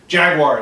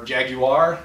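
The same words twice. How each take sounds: First: Jaguar is said the American way. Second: Jaguar is said the British way. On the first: "Jaguar is just how we say it" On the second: "or Jaguar, I know the British always get upset"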